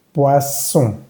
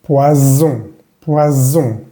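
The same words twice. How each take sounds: First: Poisson with a hissing s; unvoiced double s. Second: Poison with a buzzing z; voiced s. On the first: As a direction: keep the ss in poisson silent of voice. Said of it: "esta doble S no va a vibrar". (poisson, ss sin vibrar) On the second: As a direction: let the s in poison buzz like z. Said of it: "esta S va a vibrar". (poison, la s vibra como Z) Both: Shown as a demonstration.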